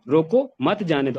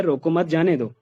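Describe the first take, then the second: First: "रोको", a break, then "मत जाने दो" together; full stop after रोको. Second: "रोको मत" run together, then "जाने दो"; pause after मत. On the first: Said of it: "रोको के बाद फुल स्टॉप लगाया". ("रोको" के बाद ठहराव, "मत जाने दो" साथ में) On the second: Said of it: "पहली लाइन में ये है". ("रोको मत" एक साथ, फिर "जाने दो") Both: Shown as a demonstration.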